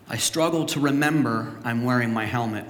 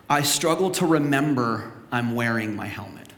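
First: "struggle" leaned on, falling at the end; stress on struggle. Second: Said in the usual way. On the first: Shown as a demonstration. Pastor repeating the point to the church, stressing struggle. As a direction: hit the word "struggle". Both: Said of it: "repeated with stress".

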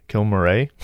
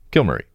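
First: "Kilmurray?" with the end said as "ray", rising like a question; "Kilmurray?" ending in a long "ay", unsure; wrong-sounding try. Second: "Kilmurray." with the end said as a short "ee", falling and sure; "Kilmurray." ending in "ee", said firmly; settled pronunciation. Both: Shown as a demonstration. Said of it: "I don't think that would be right".

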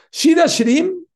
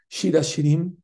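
First: Shir Hashirim cried out high and loud, rising; exclaimed. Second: Said in the usual way. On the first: Real, not acted. Preacher to congregation, excited high cry of Shir Hashirim.

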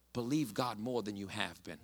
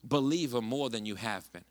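First: Quieter and lower, drawing them in; soft, intimate emphasis. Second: Said in the usual way. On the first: Real, not acted. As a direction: say it softly, leaning close. Repeating the key line softly.

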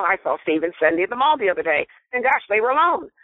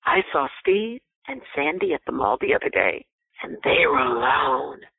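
First: Quick, light chatty telling with a lift on gosh; innocent gossip. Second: Insinuating gossip. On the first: Demonstrating an innocent tone of the same sentence to a listener, light and quick. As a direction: rattle it off like harmless news, then a bright "gosh". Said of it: "So if I said to you". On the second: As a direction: let the last words hang with a knowing hint. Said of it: "But if I said to you". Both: Shown as a demonstration.

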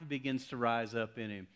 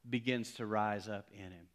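The two takes are said the same way.

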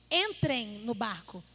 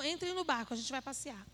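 First: Slow, firm command to get in the boat; Jesus ordering the disciples into the boat, firmly. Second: Light, offhand suggestion of a boat ride; not a command, a breezy invite to a tour; casual invitation. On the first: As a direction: lay it down as an order, not an invitation. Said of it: "Foi uma ordem". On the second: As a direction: toss it off like planning a fun outing. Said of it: "Não foi assim". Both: Retold or imitated.

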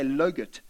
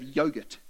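First: "logurt" with L for the Y; child's mispronunciation. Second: Said in the usual way. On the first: Retold or imitated. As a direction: start "logurt" on an L sound. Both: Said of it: "say logurt instead of yogurt".

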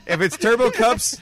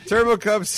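First: Loud, high call of Turbo Cups; excited shout. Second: Sung, sing-song Turbo Cups, high and loud; sung chant. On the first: Shouting name, then sung. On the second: Sings the name right after. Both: Real, not acted.

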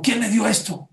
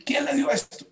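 First: Higher, louder sharp question; startled demand for who gave it; alarmed pharmacist. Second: Much higher, strained repeat of the question; the alarm climbs to near disbelief; shocked pharmacist. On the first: Pharmacist sees the broken bottle, higher alarmed question. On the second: Pharmacist repeats his question to the mother, much higher shocked voice. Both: Acted.

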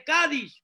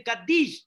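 First: Kaddish said "KA-dish", stress on the first syllable. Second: Kaddish said "ka-DISH", weight on the end; Kaddish stressed on second syllable. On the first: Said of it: "Ellos no dicen Kaddish". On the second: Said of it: "No importa cómo lo pronuncian". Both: Shown as a demonstration.

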